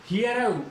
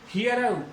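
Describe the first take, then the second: Both takes have the same delivery.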